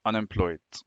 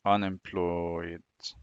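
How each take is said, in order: First: Soft, low, slowish "unemployed"; murmured while writing. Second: Very slow, low, soft "Unemployed"; drawn out while writing. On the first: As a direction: say "unemployed" quietly to yourself as you write. Writing the word while saying it. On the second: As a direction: stretch "Unemployed" out long and quietly as you write. Drawing the word out while writing. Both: Shown as a demonstration.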